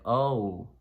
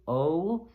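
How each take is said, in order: First: "Oh" terminando em U, lábios fechando; "Oh" deslizando para U; English O glide. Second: "O" curto com lábios parados; "O" cortado na garganta, sem fechar; pure Spanish O. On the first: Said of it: "So it's like". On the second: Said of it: "In Spanish, by contrast". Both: Shown as a demonstration.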